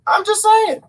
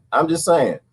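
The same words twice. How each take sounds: First: High squeaky just saying; high sassy aside; high mock aside. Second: Said in the usual way. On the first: Repeated, first high.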